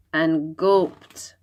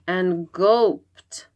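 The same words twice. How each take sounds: The two takes are said the same way.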